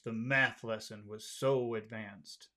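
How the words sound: It is said with low pitch, serious. "try serious. Serious. Low"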